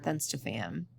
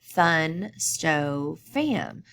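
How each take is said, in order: First: Said in the usual way. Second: Thun, sto, fam with a pause between each part; split into syllables. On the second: Shown as a demonstration. Teacher shows students how to chunk the word, syllable by syllable. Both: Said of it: "break it up into three syllables".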